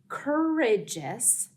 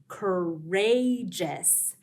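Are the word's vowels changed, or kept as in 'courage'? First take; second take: kept; changed. First: The vowels are kept as in 'courage'. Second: The vowels change from those in 'courage'. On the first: The speaker calls it wrong. "we don't say courageous" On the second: The speaker calls it right. "we say courageous"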